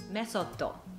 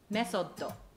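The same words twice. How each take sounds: First: It is said in Japanese katakana style, 'mesotto'. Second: It is said in Japanese katakana style, 'mesotto'.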